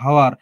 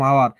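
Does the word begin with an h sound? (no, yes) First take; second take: yes; no. First: The word begins with an h sound. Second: The word begins without an h sound. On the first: "উচ্চারণ হওয়ার কথা ছিল হাওয়ার" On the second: "এইচ আমরা বাদ দিয়ে দিলাম। শুধু উচ্চারণ করলাম"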